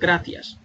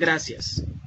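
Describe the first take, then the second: First: It is said with a Spain Spanish accent. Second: It is said with a Latin American accent. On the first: "en España ellos lo dicen" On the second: "en Latinoamérica lo dicen"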